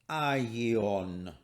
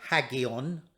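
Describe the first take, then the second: First: The word begins with no h sound. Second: The word begins with an h sound. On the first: The speaker calls it right. "it's aion" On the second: The speaker calls it wrong. "we don't pronounce the rough breathing, so we don't say hagion"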